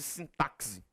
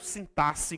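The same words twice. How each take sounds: First: The x is not said as a double s. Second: The x is said as a double s sound.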